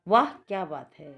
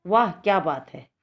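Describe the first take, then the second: First: Said in the usual way. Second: Exclaimed. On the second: Shown as a demonstration. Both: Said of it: "इसमें क्या आएगा ये".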